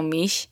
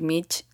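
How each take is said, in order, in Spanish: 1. El nombre termina con sonido 'sh'. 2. El nombre termina con sonido 'ch'. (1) "no Mish" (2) "Me pueden decir Mitch"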